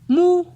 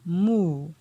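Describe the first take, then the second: First: The syllable is said on a high tone. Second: The syllable is said on a falling tone. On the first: "ton haut" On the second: "pour le ton descendant"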